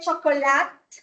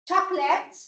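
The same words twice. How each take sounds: First: The middle vowel is pronounced aloud. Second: The middle vowel is not pronounced. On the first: The speaker calls it wrong. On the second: The speaker calls it right.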